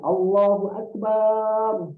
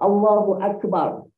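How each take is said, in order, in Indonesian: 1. Vokal terakhir Akbar itu panjang. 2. Vokal terakhir Akbar itu pendek. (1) "kalau kita tambah alif kat belakang" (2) "Contoh kita sebut Allahu Akbar"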